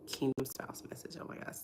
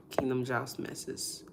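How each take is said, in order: First: Whispered, near-voiceless repeat trailing into a breathy oh my gosh; voice giving out. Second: Said in the usual way. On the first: Real, not acted. Vlogger stumbling over her words live, whisper as her voice gives out. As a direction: say it again as the voice cracks away to nothing. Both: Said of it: "I feel like I can't talk".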